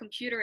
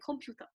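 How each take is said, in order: First: It is said with a standard English accent. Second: It is said with a Korean accent. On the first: This is how the speaker used to say it. "you're not saying computer anymore" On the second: The speaker has picked up Konglish without noticing. "you're saying computer"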